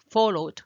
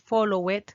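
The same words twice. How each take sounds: First: The e in the ending is not pronounced. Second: The e in the ending is pronounced aloud. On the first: The speaker calls it right. "La E no suena" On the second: The speaker calls it wrong. "No puedes decir"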